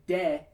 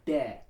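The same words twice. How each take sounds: First: De with the tongue behind the teeth, American style; wrong de. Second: De with the tongue on the back of the top teeth, almost a th; touch tongue to top teeth for de, nearly th; right de. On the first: Choir coach showing singers the wrong de. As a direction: say de the usual American way. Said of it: "You don't wanna say de". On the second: Choir coach showing singers the right de. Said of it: "you wanna say de". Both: Shown as a demonstration.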